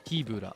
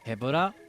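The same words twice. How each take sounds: First: The first vowel is long, as in meat. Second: The first vowel is short, as in head. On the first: "Rhymes with with uh meat broth" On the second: "rhymes with head run, head rush"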